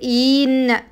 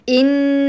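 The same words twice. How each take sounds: First: The first vowel is stretched out long. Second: The first vowel is kept short. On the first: The speaker calls it wrong. "لا تجعلي للهمزة مطة فتقولي إن" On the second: The speaker calls it right. "إنما هي إن"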